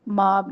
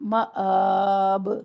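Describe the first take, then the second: First: The vowels run together with no glottal catch. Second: A glottal catch separates the two vowels. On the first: The speaker calls it wrong. "माब नहीं है" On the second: The speaker calls it right. "अलिफ हमजा बन गया क्योंकि उसके ऊपर कड़ी हरकत है"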